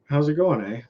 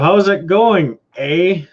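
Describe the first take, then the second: First: It is said in a natural Canadian manner. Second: It is said in an imitated American manner. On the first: A local is saying the phrase. The speaker calls it right. "We we say it" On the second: An outsider is imitating the phrase. The speaker calls it wrong. "when most of them most of them go"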